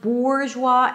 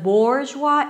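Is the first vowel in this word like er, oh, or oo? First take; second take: oo; oh. First: The first vowel sounds like oo. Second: The first vowel sounds like oh. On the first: "it's not an OO sound, it's not bourgeois" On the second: "it's not an O sound, it's not bourgeois"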